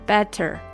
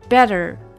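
First: The second syllable is slow and fully pronounced. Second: The second syllable is quick and reduced. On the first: The speaker calls it wrong. "better 不能better 啊" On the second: The speaker calls it right. "它是better 只有你说成better 快的时候"

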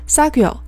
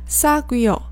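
First: The syllables run together smoothly into one. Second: Each syllable is said clearly and separately. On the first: "所以听起来更像是사귀어" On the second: "连起来呢是사귀어。一般来讲你在电视里面也不会听到他们把这个念得那么分开"

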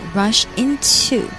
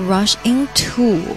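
First: The 'to' is squeezed out between the teeth. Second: The 'to' is said as a plain, full sound. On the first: The speaker calls it right. "要把它类似于从牙齿中间挤出去的那个样子" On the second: The speaker calls it wrong. "不要说rush into 不好听"

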